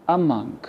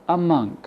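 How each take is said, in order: No difference in how they are said.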